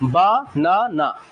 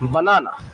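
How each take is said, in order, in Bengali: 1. প্রতিটি সিলেবল আলাদাভাবে, মাঝে বিরতি দিয়ে বলা হয়। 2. সিলেবলগুলো কোনো বিরতি ছাড়াই একসাথে মিশে যায়।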